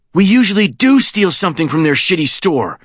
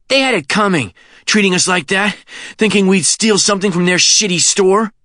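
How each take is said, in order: First: High retort leaning hard on "do"; stress on DO. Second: High-pitched indignation, lifting at "shitty store"; indignant, rising end. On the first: Sean corrects Kenny's excuse, stress on "do". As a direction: hit "do", then fall away to the end. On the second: Kenny defends stealing from "shitty store", indignant rising end. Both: Acted.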